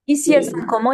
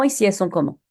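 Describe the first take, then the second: First: Louder, higher prompting question to the class. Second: Said in the usual way. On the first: Shown as a demonstration. Teacher prompting pupils, asking louder and higher. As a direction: call out the question to wake the class.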